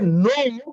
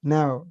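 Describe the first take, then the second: First: It is said with a wide-open mouth. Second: It is said with a narrow, closed mouth.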